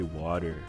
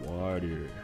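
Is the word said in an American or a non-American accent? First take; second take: American; American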